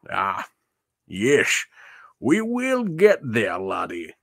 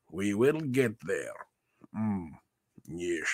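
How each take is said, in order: First: Sean Connery voice. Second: Put-on Scottish Connery accent, "We will get there" repeated softer and fading to a murmur; Sean Connery voice. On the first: Pretend. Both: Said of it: "Is my Sean Connery voice".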